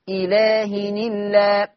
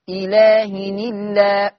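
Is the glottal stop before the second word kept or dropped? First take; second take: dropped; dropped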